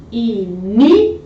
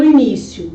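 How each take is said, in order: First: Início split as i-NÍ-cio, middle held long; split into syllables. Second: Said in the usual way. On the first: Shown as a demonstration. Teacher showing the stressed syllable, Início syllable by syllable. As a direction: slowly break Início into i, NÍ, cio with pauses. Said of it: "Perceba que a segunda sílaba". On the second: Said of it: "a palavra início é uma paroxítona".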